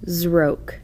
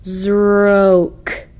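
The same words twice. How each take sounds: First: Zroke said quickly as one whole word; quick plain Zroke; read quickly. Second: Zroke stretched slowly, sound by sound; drawn-out Zroke. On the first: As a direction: snap out Zroke fast. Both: Shown as a demonstration. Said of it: "The nonsense word should be read like this".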